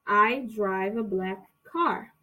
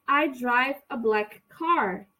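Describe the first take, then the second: First: Slow it down for learners; slow model sentence. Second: Said in the usual way. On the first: Shown as a demonstration. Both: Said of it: "repetir essa frase".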